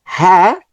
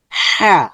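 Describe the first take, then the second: First: Said in the usual way. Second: Constrict the throat on the h of "হা"; thicker sound. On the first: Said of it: "normal sound হচ্ছে". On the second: Shown as a demonstration. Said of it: "একটু গাঢ় হচ্ছে". ("হা" গাঢ় করে, ভিতর থেকে)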